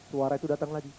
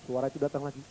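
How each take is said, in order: Both takes have the same delivery.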